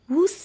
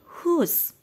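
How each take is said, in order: First: The word begins with an audible W sound. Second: The word begins without any W sound. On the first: The speaker calls it wrong. "Tidak boleh dibaca whose ya" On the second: The speaker calls it right. "W-nya disamarkan saja, tidak kelihatan"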